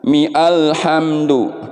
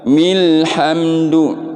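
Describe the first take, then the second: First: A separate 'a' vowel is heard before 'lhamdu'. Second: The words run together with no 'a' vowel. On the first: The speaker calls it wrong. "bukan dibaca mi alhamdu" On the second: The speaker calls it right. "Milhamdu gitu"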